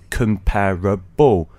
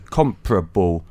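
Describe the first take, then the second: First: The word is said with four syllables. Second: The word is said with three syllables. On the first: The speaker calls it wrong. "it becomes a four syllable word. So comparable, one, two, three, four" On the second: The speaker calls it right. "technically only got three syllables. So comparable, one, two, three"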